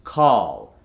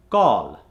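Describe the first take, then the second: First: American accent. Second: Indian accent. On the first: Coach gives the converted word, American accent. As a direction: call with a long open "ah". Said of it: "to the American accent". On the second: Coach gives the word to convert, Indian accent. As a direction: call with a rounded "o". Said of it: "from the Indian accent". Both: Shown as a demonstration.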